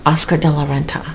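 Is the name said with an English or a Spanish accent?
English. The name is said with an English accent. "you want me to say it in an English way?"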